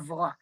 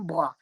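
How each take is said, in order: First: It starts with a v sound, carioca style. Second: It starts with a b sound, paulista style.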